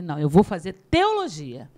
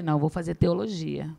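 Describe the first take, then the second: First: "teologia" leaning hard, pitch swooping up then falling; retold stubborn reply, "teologia" heavily emphasised; insistent stress on teologia. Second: Said in the usual way. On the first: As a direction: punch and stretch "teologia" to insist. Repeats answer, insisting to teacher.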